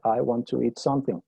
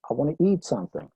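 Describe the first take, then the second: First: Every syllable is given the same length. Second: The first words are squeezed together quickly. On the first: A Spanish speaker is saying it. "todas las sílabas las dije con exactamente el mismo valor de tiempo" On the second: A native speaker is saying it. "esas primeras tres palabras, I wanna, tienen un valor de tiempo, un ritmo muy diferente"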